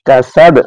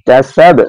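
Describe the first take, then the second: Both takes have the same delivery.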